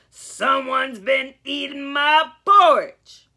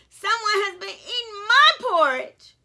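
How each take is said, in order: First: It is roared in Papa Bear's voice. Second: It is cried in Mama Bear's voice.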